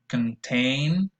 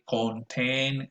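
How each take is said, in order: First: The first vowel is a relaxed schwa. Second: The first vowel is a full, effortful vowel. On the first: The speaker calls it right. "schwa at the beginning of words" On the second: The speaker calls it wrong. "A common mistake is that people say contain"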